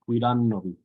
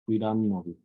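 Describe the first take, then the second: No difference in how they are said.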